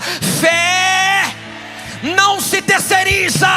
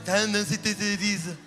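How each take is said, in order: First: It is said in a fierce, intense way. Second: It is said in a weak, limp way.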